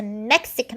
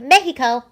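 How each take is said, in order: First: Said in the usual way. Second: "Mexico" as MEH-hee-ko, punched louder; loud, playful Spanish-style "Mexico", MEH-hee-ko; Spanish pronunciation. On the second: Pretend. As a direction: hit "Mexico" hard with a Spanish h for the x.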